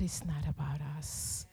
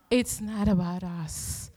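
First: Hushed whisper, "that it's not about us" breathed unvoiced. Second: Said in the usual way. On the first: Pastor to congregation, whispering "not about us".

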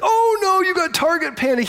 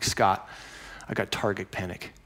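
First: Much higher and louder, hammed-up alarm; hammed-up high cry of mock dismay; mock alarmed Scott. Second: Mopey low complaint to the archery coach; glum confession. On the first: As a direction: squeal it like a knowing friend. Shop owner Scott reacting. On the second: Retold or imitated. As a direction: lower and softer, dejected admission. Confessing problem to shop owner.

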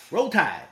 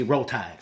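First: A light Southern accent, Roll Tide! called out high; Southern accent cheer. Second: Said in the usual way. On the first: Shown as a demonstration. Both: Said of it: "You have to say it with a, somewhat of a Southern accent".

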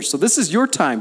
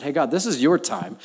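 First: "your" hit high and loud, daring God; bold challenge to God. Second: Said in the usual way. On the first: Shown as a demonstration. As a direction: punch "your", louder and higher, a playful dare. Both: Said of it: "I love challenging God in this way".

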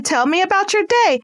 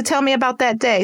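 First: Your lifted high and bright; eager. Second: Said in the usual way. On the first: Shown as a demonstration. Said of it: "Oh man". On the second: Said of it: "Let's go back to".

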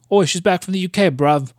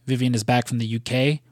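First: Higher-pitched, hammed-up bad British accent; terrible British accent. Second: Said in the usual way. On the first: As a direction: do a deliberately awful British "bruv". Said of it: "like, that's a terrible British accent". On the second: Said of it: "that's a terrible British accent".

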